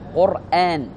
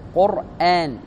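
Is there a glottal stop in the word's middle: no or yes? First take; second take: yes; yes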